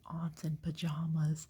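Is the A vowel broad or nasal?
broad. The A vowels are broad, like a fancy accent.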